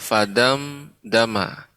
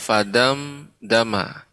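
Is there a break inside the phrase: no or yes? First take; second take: yes; yes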